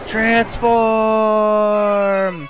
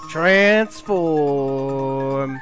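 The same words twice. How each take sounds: First: The word is yelled loudly. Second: The word is said at a normal volume. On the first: The speaker calls it right. "More like in a yelling way" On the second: The speaker calls it wrong. "I should not say it like that"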